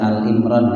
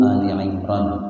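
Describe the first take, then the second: First: The first word is a single syllable, al. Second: The first word has two syllables, ending in i. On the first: The speaker calls it wrong. "jangan dibaca Al Imran ya. Al Imran enggak ada" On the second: The speaker calls it right. "Yang betul Ali"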